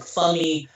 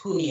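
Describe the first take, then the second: First: The name begins with a clear f sound. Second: The name begins with a soft h-like sound. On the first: The speaker calls it wrong. "name looks like Fummy" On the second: The speaker calls it right. "but it's pronounced Humie"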